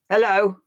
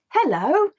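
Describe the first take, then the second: First: The word sounds angry. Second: The word sounds happy.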